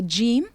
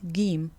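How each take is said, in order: First: The name begins with a 'j' sound. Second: The name begins with a hard 'g' sound.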